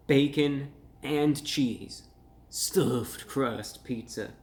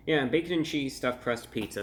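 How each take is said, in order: First: "bacon and cheese stuffed crust pizza" stretched out very slowly, each word weighted; emphatic slow read. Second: Said in the usual way. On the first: Shown as a demonstration. Reading the back of the box to viewers, slow and emphatic. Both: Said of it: "get this for emphasis".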